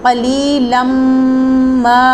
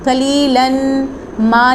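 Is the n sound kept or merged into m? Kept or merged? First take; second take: merged; kept. First: The n merges into the following m. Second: The n is pronounced before ma. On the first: The speaker calls it right. "इनको आपस में मिला के पढ़ेंगे" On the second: The speaker calls it wrong. "नहीं पढ़ेंगे"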